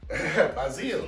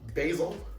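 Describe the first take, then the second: First: The word is said with a French-sounding pronunciation. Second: The word is said with a plain English sound. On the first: "that's a little too Frenchy" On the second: "Choose your pronunciation"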